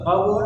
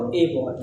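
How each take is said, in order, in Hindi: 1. इस आर्टिकल का उच्चारण छोटा और reduced 'uh' जैसा होता है। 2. इस आर्टिकल का उच्चारण पूरा 'ay' जैसा होता है। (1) "थोड़ा सा ज्यादा इम्फेटिक तरीके से नहीं बोलना है तो अ बॉय" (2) "ज्यादा इम्फेटिक तरीके से बोलना है तो ए बॉय"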